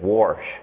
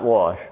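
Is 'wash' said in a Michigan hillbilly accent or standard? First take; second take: hillbilly; standard. First: It is said in a Michigan hillbilly accent. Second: It is said in a standard accent. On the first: The speaker calls it right. "I'm a Michigan hillbilly" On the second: The speaker calls it wrong. "not wash"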